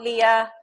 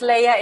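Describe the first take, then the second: First: The name sounds like the name Leah. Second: The name sounds like Princess Leia from Star Wars. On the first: The speaker calls it wrong. "It's not Leah" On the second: The speaker calls it right. "It's Leia, like in Princess Leia"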